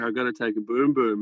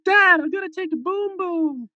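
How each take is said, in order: First: Said in the usual way. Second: High-pitched mock kid's call; six-year-old son. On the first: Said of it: "He'd be like". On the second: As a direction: imitate a little boy calling out to his dad. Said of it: "his six-year-old son ... would look at us all and be like".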